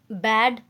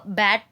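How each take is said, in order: First: बैड ending on a clear voiced d sound; bad with a d. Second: बैट ending on a crisp unvoiced t sound; bat with a t. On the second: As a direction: say बैट with a sharp t at the end. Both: Shown as a demonstration. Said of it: "अगर आपने wrongly pronunciation किया".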